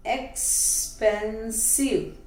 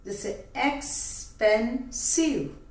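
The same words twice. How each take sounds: First: एक्सपेंसिव said slowly, syllable by syllable; split into syllables. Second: Said in the usual way. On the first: Shown as a demonstration. Teacher showing the class the three syllables of एक्सपेंसिव, slow and separated. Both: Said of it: "three syllables में हम break कर लिए".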